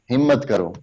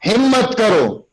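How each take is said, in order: First: Smiling, limp delivery. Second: ہمت کرو called high and strong; ہمت کرو hit hard with rousing force; right way: ہمت کرو as a rousing call; put life in the word. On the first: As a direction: say ہمت کرو gently with a smile, no push. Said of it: "smiling face کے ساتھ". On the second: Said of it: "لفظ کے اندر جان ڈالنی ہے". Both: Shown as a demonstration.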